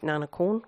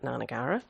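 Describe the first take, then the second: First: It is said with the Thai pronunciation. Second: It is said as spelled, English-style. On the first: It is the original pronunciation from the family's language. "which is the correct, correct pronunciation, the Thai pronunciation" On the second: It is easier for people because it matches the spelling. "when we pronounce it phonetically, we pronounce it Nanagara"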